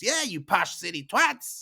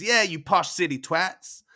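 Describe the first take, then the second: First: Higher jeer, lightly voiced; jeering twin. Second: Higher, louder jeer, lightly voiced; jeering twin. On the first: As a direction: echo the other twin's insult. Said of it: "Bombino goes". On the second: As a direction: back up the sibling's insult. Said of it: "Bunda says".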